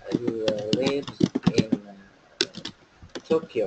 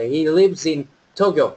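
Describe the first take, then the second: First: "He lives in" broken off, pause, then "Tokyo"; halting chunks, separating "lives in" from "Tokyo"; split up for ease. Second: "lives in" joined as "lip-sin", slow whole sentence; teacher's slow linked model of "He lives in Tokyo"; linked sounds. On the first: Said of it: "tách ra cho dễ này". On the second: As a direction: run "lives in" together before "Tokyo". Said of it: "nối âm". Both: Shown as a demonstration.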